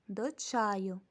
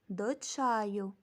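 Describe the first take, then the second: No difference in how they are said.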